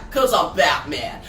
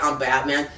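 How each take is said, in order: First: Batman line. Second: A hint of a gruff Batman growl; low Batman voice. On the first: Retold or imitated. Comic book recap, Batman jumps up. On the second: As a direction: recap reader corrects the line, low Batman voice. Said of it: "he doesn't really say that".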